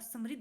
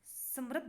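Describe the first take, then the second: First: The r is followed by an 'i' vowel. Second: The r is followed by an 'a' vowel. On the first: The speaker calls it right. "समृद्ध होता है" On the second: The speaker calls it wrong. "समृद्ध नहीं होता"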